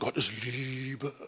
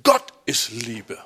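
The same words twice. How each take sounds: First: The stress falls on the word Liebe. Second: The stress falls on the word Gott. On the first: Love is the main point, so be gentle. The speaker calls it wrong. "Denk dran" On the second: God defines what love is. The speaker calls it right. "Nein, die Betonung ist"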